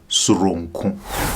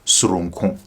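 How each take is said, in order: First: The word is said slowly and deliberately. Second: The word is said at normal speed. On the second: "One last time"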